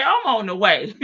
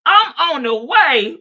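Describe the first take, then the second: First: Lighter take, laughing through it; amused retelling. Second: Loud, high angry mama; loud mock threat; mock mama yelling. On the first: Retold or imitated. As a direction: repeat it while cracking up. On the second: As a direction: bark it like a mad mother. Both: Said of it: "Mama say".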